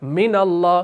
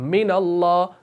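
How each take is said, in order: No difference in how they are said.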